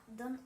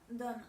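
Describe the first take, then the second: Both takes have the same delivery.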